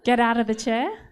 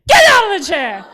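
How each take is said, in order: First: The phrase is said quietly and calmly. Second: The phrase is shouted loudly.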